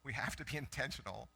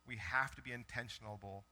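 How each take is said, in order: First: Says "intentional" properly with a little laugh; "intentional" in four syllables, laughing; self-correction. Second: Says "intentionable" with an extra -able syllable; "intentionable" said in full, five syllables; misspoken word. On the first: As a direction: fix it to "intentional", amused at the slip. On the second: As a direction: stumble into "intentionable" as if it were a real word. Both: Shown as a demonstration. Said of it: "That's not a word".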